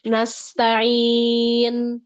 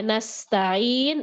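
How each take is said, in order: First: Nasta'in louder, S let out without rushing; unhurried sin. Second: Nasta'in very slow, the S hissing long; flowing sin. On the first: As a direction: take your time on the S of nasta'in. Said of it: "Jangan terburu-buru juga nih di sin". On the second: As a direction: draw out the S of nasta'in. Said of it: "alirkan sin". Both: Shown as a demonstration.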